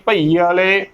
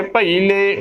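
First: ਭਈ ਵਾਲੇ as "bha-ee-aale"; wrong added vowel. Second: ਭਈ ਲੈ joined as "bha-ee-le"; correct pronunciation. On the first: Teacher showing the slip, mispronunciation. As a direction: add an "aa" before the le of ਭਈ ਵਾਲੇ. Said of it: "ਤਾਂ ਗਲਤ ਉਚਾਰਨ ਹੋਵੇਗਾ". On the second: Teacher giving the right reading, careful pronunciation. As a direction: run ਭਈ ਲੈ together with no "aa". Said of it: "ਉਚਾਰਨ ਕਰਨਾ". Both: Shown as a demonstration.

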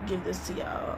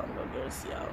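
First: Said in the usual way. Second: Whispered give this to y'all; whispering. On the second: Real, not acted. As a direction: breathe it, voiceless. Whispered repeat.

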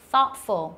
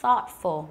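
First: Careful model pronunciation of thoughtful, th as in think; teacher's model word. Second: Thoughtful repeated with the th clearly voiced out; repeated model word. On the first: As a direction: say thoughtful slowly with a clear th. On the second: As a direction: say thoughtful a second time, clearly. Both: Shown as a demonstration. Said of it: "ví dụ như là từ".

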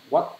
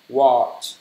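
First: "What" with a bare final t instead of the ch of "Watch"; common mistake. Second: "Watch" ending in a clear ch sound; correct pronunciation. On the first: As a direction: clip "What" off with a hard t, no ch sound. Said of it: "mọi người hay đọc là what đúng không?". (đọc sai thành "What", cuối là âm t thay vì ch) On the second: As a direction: finish "Watch" with a crisp ch. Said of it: "Không đúng đâu". (đọc đúng "Watch" với âm ch cuối rõ) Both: Shown as a demonstration.

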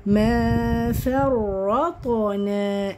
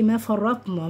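First: "ما فرطنا" very slow, light f and final naa; correct recited form. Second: "ما فرطنا" short, with heavy f and final na; wrong heavy form. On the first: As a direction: chant "ما فرطنا" with long vowels. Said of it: "أيوه، ما حدش يقول لي". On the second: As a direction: run "ما فرطنا" together as a mistake. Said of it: "ما حدش يقول لي". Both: Shown as a demonstration.

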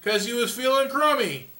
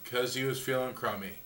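First: Said in the usual way. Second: Lower, much softer deadpan echo; deadpan repeat. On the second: Shown as a demonstration. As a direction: repeat it dry and soft.

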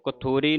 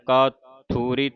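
First: ਕਥੂਰੀ with a short first vowel; wrong pronunciation. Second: ਕਾਥੂਰੀ slowly, with a long first aa; correct pronunciation. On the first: Teacher warning the congregation off a misreading, wrong pronunciation. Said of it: "ਕਥੂਰੀ ਨਹੀਂ ਕਹਿ ਦੇਣਾ". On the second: Teacher showing the long vowel on k, correct pronunciation. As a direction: draw out kaa in ਕਾਥੂਰੀ. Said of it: "ਕੱਕੇ ਨੂੰ ਕੰਨਾ ਲੱਗਿਆ". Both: Shown as a demonstration.

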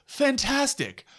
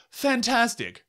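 No difference in how they are said.

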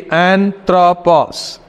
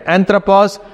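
First: "anthropos" slowly, syllable by syllable; broken into three. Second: Said in the usual way. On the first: Shown as a demonstration. Teacher showing the class a word's three syllables, "anthropos" broken up slowly. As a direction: split "anthropos" into three parts, an-thro-pos. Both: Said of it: "we are breaking into three".

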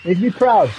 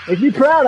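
First: Said in the usual way. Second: "Make me proud" said higher and louder with a rise on "proud"; "Make me proud" pushed louder, rising on "proud"; insistent repeat. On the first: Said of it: "Make me proud, I said". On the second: Real, not acted. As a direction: repeat the order with more push. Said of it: "I said".

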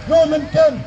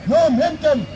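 The two takes are said the same way.

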